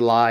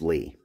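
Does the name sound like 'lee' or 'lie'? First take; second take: lie; lee. First: The name is said with an 'eye' vowel. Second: The name is said with an 'ee' vowel. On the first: The speaker calls it wrong. "I'm sorry if I say lie and offend you" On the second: The speaker calls it right. "I know this is pronounced Lee"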